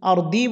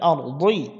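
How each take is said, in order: First: The consonant sounds like a plain d. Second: The consonant is a heavy emphatic sound. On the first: The speaker calls it wrong. "আর দি বলা যাবে না, তাহলে দাল হয়ে যাবে" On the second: The speaker calls it right. "জিব্বার গুড়া দিয়ে উচ্চারণ করতে হবে"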